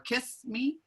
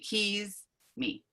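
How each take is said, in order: First: The first word ends with a hissing S sound. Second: The first word ends with a buzzing Z sound. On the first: The speaker calls it wrong. "what I'm hearing is the S sound as in kiss" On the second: The speaker calls it right. "as opposed to the Z sound as in keys"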